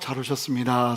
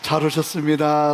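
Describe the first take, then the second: First: It is said in a plain, ordinary way. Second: It is said more warmly and gladly.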